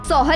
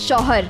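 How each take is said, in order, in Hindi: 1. शब्द की शुरुआत साधारण s ध्वनि से होती है। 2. शब्द की शुरुआत sh ध्वनि से होती है। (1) "सौहर नहीं" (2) "इट्स शौहर"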